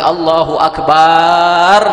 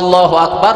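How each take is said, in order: First: The ba vowel in Akbar is drawn out. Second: The first a of Allah is drawn out. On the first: "memanjangkan fathah ba dari kalimat Allahu Akbar" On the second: "dia memanjangkan hamzah Allah"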